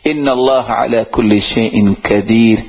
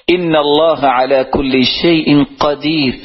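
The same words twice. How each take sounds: First: قدیر said as کدیر with a plain kaf; wrong kaf. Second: Slow recitation, قدیر with a clear qaf; correct qaf. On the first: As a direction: say قدیر with a front k sound, کدیر. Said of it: "وہ کاف جس کے ساتھ کتاب لکھی جاتی ہے". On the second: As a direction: recite قدیر slowly with a back-of-throat qaf. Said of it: "جب اس کو قاف پڑھیں گے". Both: Shown as a demonstration.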